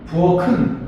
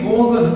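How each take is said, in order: First: The middle consonant is an aspirated k. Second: The middle consonant is a soft plain g. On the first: The speaker calls it right. "이게 맞는 발음이라는 거죠" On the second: The speaker calls it wrong. "이건 연음에 따르지 않아서 잘못된 것이다"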